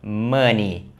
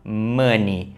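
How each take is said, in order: Both takes have the same delivery.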